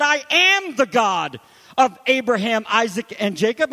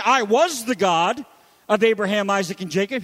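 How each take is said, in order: First: Am stretched and hit loud; stress on am. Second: Said in the usual way. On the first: Shown as a demonstration. Preacher correcting the wrong tense, stressing am. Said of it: "He said". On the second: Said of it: "he doesn't say".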